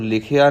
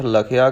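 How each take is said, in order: First: ਲਿਖਿਆ as "li-khi-aa"; misreading with "i". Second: ਲਖਿਆ as "la-khi-aa"; first vowel "a". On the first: Teacher warns learners off this reading, ਲਿਖਿਆ as "li-khi-aa". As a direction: open ਲਿਖਿਆ with a short "i" after l. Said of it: "ਇਹਨੂੰ ਲਿਖਿਆ ਨਹੀਂ ਪੜ੍ਹਨਾ". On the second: Teacher gives the correct reading, ਲਖਿਆ as "la-khi-aa". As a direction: open ਲਖਿਆ with a short "a" after l. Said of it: "ਇਹ ਪਾਠ ਲਖਿਆ ਕਰਨਾ". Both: Shown as a demonstration.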